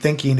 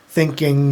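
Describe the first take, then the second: First: The ending has a soft, plain g sound. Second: The ending has a long, hard g sound. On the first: "it wasn't thinking" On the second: "it had that long G on the everything"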